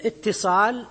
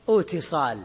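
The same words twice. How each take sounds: First: اتصال as ittisal, with a doubled t; easier assimilated form. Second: اتصال as iwtisal, long opening glide, single t; harder original form. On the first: Teacher shows which is easier to say, اتصال with doubled ta. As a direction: double the ta in اتصال, starting on short i. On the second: Teacher contrasts the heavier original, اتصال with waw kept. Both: Shown as a demonstration. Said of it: "أسهل من".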